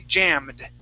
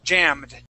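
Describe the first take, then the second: The two takes are said the same way.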